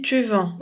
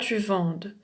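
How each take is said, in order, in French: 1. Le mot finit sur la voyelle, pas de son d. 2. Le mot finit par un son d audible. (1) "Je dis tu vends" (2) "on dit pas tu vendes"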